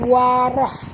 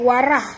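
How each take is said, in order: First: The r sound is thick and heavy. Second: The r sound is thin and light. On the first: The speaker calls it right. "baca warah ya. Warah ya, tebal" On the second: The speaker calls it wrong. "jangan baca warah"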